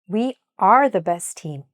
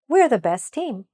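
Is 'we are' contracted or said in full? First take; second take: full; contracted. First: 'We are' is said as two full words. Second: 'We are' is contracted to one syllable. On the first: The speaker calls it right. "How can you improve that?" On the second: The speaker calls it wrong. "I'm going to read the contracted sentence"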